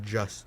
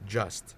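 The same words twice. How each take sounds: First: The word is slurred with sounds dropped. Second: The word is said fully with every sound. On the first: "I said just" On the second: "I did not say just"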